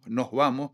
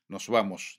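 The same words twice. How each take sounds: First: The final s becomes a breathy h. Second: The final s is fully pronounced. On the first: This is the speech of Tenerife. "en Tenerife se convierte en nos vamos, aspiramos la ese final" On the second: This is the conservative speech of El Hierro. "Mantenimiento de las eses finales. Nos vamos, diría un herreño"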